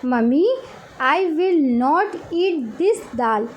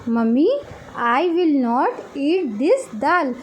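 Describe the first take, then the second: Both takes have the same delivery.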